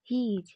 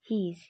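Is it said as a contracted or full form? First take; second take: full; contracted. First: Both words are said separately in full. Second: The words are joined into one short syllable.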